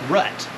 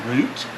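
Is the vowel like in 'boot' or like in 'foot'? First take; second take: foot; boot. First: The vowel is short, as in 'foot'. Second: The vowel is long, as in 'boot'. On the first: This is how someone from Nebraska says it. "she says rut" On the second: This is the speaker's own way of saying it. "says root, like I do"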